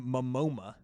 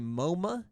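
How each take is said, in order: First: The name is said with an extra 'm' before the end. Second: The name is said with two syllables, no final 'a'. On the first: "or Momoma" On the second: "you either say Moma"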